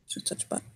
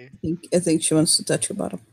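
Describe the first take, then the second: First: Unvoiced secretive whisper of bottom. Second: Said in the usual way. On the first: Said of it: "whispered repeat". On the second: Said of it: "whisper repeat".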